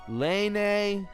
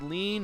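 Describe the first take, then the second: First: The vowel is a long 'ay' sound. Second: The vowel is a long 'ee' sound. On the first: "or lane" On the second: "you're supposed to pronounce it lean"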